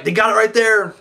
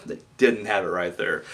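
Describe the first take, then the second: First: High, eager "They got it right there."; excited call. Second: Said in the usual way. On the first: Retold or imitated. Fan believing the match is won, excited. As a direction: call the finish like it's over.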